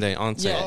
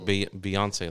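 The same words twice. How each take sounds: First: The name starts with a 'bay' sound. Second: The name starts with the usual 'bee' sound. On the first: The name is said like the nickname Bae. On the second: The name is said the normal way.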